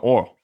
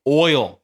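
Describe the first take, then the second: First: "oil" as one flattened syllable, like "ole"; Southern oil. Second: "Oil" with a full oy-ul glide; careful standard oil. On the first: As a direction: say "oil" without its glide, Southern style. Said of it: "Like that". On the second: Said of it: "You say oil". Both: Shown as a demonstration.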